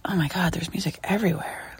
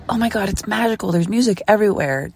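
First: Whispered, worn-out groan; weary whisper of a tired tourist; exhausted whisper. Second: Fast, bright-eyed tourist gush; excited tourist gushing; giddy wonder. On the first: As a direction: say it like you can't take any more. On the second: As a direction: gush about the magic. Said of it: "you go from". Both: Retold or imitated.

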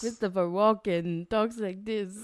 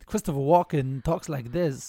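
First: Halting Walken cadence; Christopher Walken impression. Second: Slow halting Walken cadence; odd pauses, Walken style; Christopher Walken impression. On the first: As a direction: try the Walken rhythm. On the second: Shown as a demonstration.

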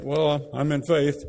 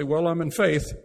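First: Mock pious believer. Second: Said in the usual way. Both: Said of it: "And they say it like that".

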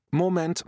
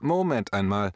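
First: Hoch und laut, wie ein Trainer der unterbricht; coach's interruption. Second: Lauter, bestimmt, Betonung auf Moment; firm coach's call. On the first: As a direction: ruf die Runde zur Ordnung. (Trainer-Ruf, höher und lauter) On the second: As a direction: setz nach wie ein Trainer, fest und laut. (bestimmtes „Moment einmal“, lauter) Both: Retold or imitated. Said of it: "in typischer alter Trainermanier".

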